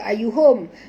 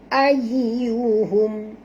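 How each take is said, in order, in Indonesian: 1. Bunyi y pendek dan tidak ditahan. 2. Bunyi y digandakan dan ditekan. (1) "jangan baca ayyuhum" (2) "bila ada tasydid kita kena baca njud"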